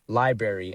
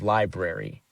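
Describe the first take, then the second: First: The word is said with sounds slurred together. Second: The word is said with every sound clearly enunciated. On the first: The speaker calls it wrong. "I said the word library" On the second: The speaker calls it right. "instead of library"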